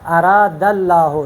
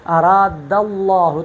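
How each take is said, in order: First: Slow اراد اللہ with a thin lam in اللہ; light, not heavy. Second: Slow اراد اللہ with the lam of اللہ thick and full; اراد اللہ, lam made heavy; heavy tafkheem. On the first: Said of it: "تو یہ میں نے پر نہیں پڑھا". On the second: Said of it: "تو میں نے یہ پر پڑھا". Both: Shown as a demonstration.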